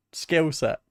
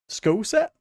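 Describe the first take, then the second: First: "Skill set" said plainly as the correction; plain self-correction, "Skill set"; corrected word. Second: "School set" with a high questioning rise, catching the slip; amused double-take on "School set"; mispronounced. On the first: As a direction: fix the word to "Skill set" matter-of-factly. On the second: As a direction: echo "School set?" as a surprised question at the wrong word. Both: Real, not acted.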